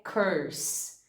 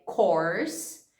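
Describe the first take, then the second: First: "curse" said very slowly with a central er vowel; careful curse. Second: "course" said very slowly with an open o; careful course. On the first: Teacher contrasting curse and course, slow er vowel. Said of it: "que é curse". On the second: Teacher contrasting course and curse, slow open o. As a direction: stretch out "course" with a rounded o. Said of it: "que é course". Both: Shown as a demonstration.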